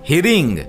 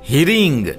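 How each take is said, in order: No difference in how they are said.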